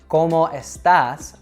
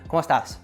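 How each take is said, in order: First: Both words are said clearly and separately. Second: The E sound is dropped, joining the words. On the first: "as two clear words" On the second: "The E sound disappeared altogether"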